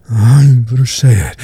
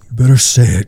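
First: Raised demand. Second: Repeated demand. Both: Acted.

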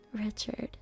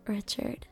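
Both takes have the same delivery.

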